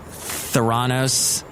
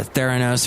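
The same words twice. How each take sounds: First: Theranos with the second syllable stressed, "ther-AH-nos"; uncertain pronunciation. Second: Theranos with the first syllable stressed, "THAIR-uh-nos"; alternative pronunciation. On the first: Host trying the company's name, Theranos said "ther-AH-nos". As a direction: say Theranos slowly as "thuh-RAH-nohs". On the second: Host second-guessing the company's name, Theranos said "THAIR-uh-nos". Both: Shown as a demonstration. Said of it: "Theranos or whatever".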